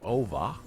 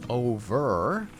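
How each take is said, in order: First: The final R sound is dropped. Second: The final R sound is clearly pronounced. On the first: "instead of" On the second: "the letter R gets pronounced even at the end of a word"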